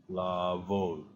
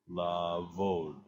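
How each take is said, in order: No difference in how they are said.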